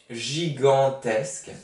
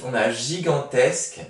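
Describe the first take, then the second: First: Gigantesque said slowly, syllable by syllable; slow dictation reading. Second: Said in the usual way. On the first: Shown as a demonstration. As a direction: spell it out with your voice for the class. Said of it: "dictation-style slow repeat". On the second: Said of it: "teacher reads the word list".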